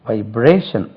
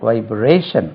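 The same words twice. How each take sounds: The two takes are said the same way.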